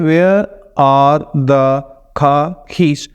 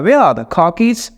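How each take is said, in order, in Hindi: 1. हर syllable पर लगभग बराबर स्ट्रेस दिया जाता है। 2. सिर्फ where, car और keys पर स्ट्रेस है। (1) "जो सिलेबल टाइम्ड में बात कर रहा है उसकी हर सिलेबल" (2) "तो वो क्या कहता है"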